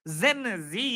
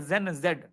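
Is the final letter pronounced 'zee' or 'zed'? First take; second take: zee; zed. First: The final letter is pronounced 'zee'. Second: The final letter is pronounced 'zed'. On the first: "जो भी pronunciation अलग अलग लोग करते हैं" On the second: "मैं जेन जेड बोलता हूं और जेन जेड ही है।"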